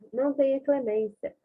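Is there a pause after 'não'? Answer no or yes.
no. It is said without a pause after 'não'. It asks for no mercy. "E ela pode condenar"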